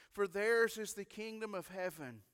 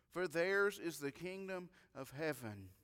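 Both takes have the same delivery.

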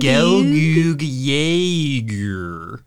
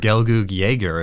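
First: Jaeger is pronounced in a fussy, unusual way. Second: Jaeger is pronounced in a plain, ordinary way.

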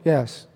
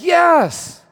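First: It is said weakly and half-heartedly. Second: It is said with passion, as if meant.

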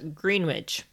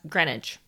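First: It is said the way foreigners pronounce it. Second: It is said the way locals pronounce it. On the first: The speaker calls it wrong. "many foreigners, including Americans, pronounce it as Greenwich" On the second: The speaker calls it right. "it is actually pronounced as Greenwich"

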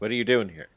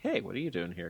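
First: The question sounds hostile and confrontational. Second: The question sounds friendly and casual.

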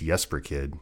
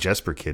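First: Jesper is said with a native-style pronunciation. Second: Jesper is said with an American English pronunciation. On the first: The speaker calls it right. "it's Jesper Kidd" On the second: The speaker calls it wrong. "it's not Jesper Kidd"

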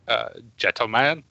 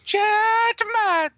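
First: It is said in an ordinary speaking voice. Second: It is said in an imitated character voice. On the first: The speaker calls it wrong. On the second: The speaker calls it right.

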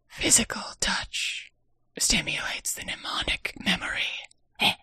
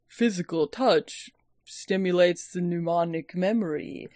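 First: It is spoken in a soft breathy whisper. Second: It is spoken in an ordinary full voice. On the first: The speaker calls it right. "He says it like this" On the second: The speaker calls it wrong. "he doesn't say it like that"

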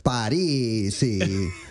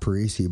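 First: The name is said with an Italian pronunciation. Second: The name is said with an American pronunciation. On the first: The speaker calls it right. "but it's Parisi" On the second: The speaker calls it wrong. "is not Parisi"

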